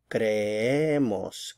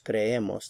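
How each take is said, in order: First: "creemos" very slowly, cre-EEE-mos; drawn-out teaching cre-E-mos for "creemos"; stress on middle syllable. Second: Said in the usual way. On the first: Shown as a demonstration. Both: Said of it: "stress is going to shift over to this middle syllable".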